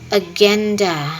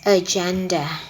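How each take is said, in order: First: The middle consonant is a hard G sound. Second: The middle consonant is a J sound. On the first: The speaker calls it wrong. "pronounced as agenda instead of the inter- intended word" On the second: The speaker calls it right. "the inter- intended word"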